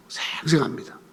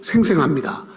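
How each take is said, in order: First: Soft, low, stretched 생 for vividness; hushed emphasis. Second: Said in the usual way. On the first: Shown as a demonstration. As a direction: drop to a near-whisper on 생생합니다. Repeats the word hushed for emphasis.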